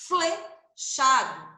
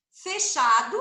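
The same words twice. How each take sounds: First: Flechado bem lento, o fl destacado; palavra silabada. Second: Said in the usual way. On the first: Shown as a demonstration. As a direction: estique o fl de flechado. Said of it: "Olha como eu falo o som do F e do L". (flechado bem devagar) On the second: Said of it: "Olha como eu falo".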